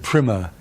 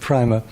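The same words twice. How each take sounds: First: The word is said with an American pronunciation. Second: The word is said with a non-American pronunciation. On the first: "the Americans pronounce it primer" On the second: "I always pronounce it primer"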